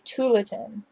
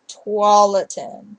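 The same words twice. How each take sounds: First: It is pronounced the way outsiders say it. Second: It is pronounced the way locals say it. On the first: The speaker is not from the state. The speaker calls it wrong. "people say" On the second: The speaker is from the state. The speaker calls it right. "but it's"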